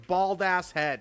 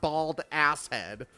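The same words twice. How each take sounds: First: Ass is grouped with bald, before head. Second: Ass is grouped with head, after bald. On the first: The head is simply bald. The speaker calls it right. "It's bald ass head" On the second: The person has a bald ass-head. The speaker calls it wrong. "not bald ass head. I don't have an ass head"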